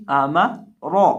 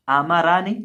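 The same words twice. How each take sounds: First: आमारा ending on a heavy falling रा; correct reading. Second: आमारा said the mistaken way; wrong reading. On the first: Teacher correcting to the right आमारा. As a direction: land आमारा on a thick ra. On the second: Teacher giving the wrong form of आमारा. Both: Shown as a demonstration.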